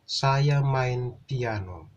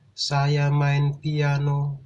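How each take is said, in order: First: The pitch rises and falls across the sentence. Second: The pitch stays flat throughout the sentence. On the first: The speaker calls it right. "kita menggunakan intonasi dalam menyampaikan kalimat tersebut" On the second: The speaker calls it wrong. "Kita tidak menggunakan intonasi yang datar saja, seperti"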